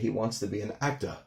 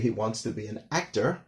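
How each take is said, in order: First: The final R becomes a drawn-out 'ah'. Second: The final R sound is clearly pronounced. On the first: "a New Yorker might say" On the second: "normally you'd say"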